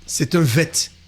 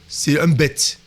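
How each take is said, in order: First: The letter name starts with a V sound. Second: The letter name starts with a B sound. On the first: The letter has no dot. "lorsqu'il n'y a pas le point, c'est un vet. Ça se prononce ve" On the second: The letter has a dot. "Lorsqu'il y a le point, ça se prononce be"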